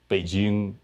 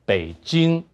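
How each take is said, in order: First: It is said with northeastern dialect pitch. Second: It is said with standard Mandarin pitch. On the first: "In northeastern Chinese, 东北话, we say" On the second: "In Mandarin, we say"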